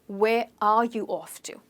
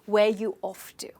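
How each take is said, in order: First: The word 'are' is fully pronounced. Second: The word 'are' is dropped entirely. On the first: "it actually can be asked as" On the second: "they drop the R"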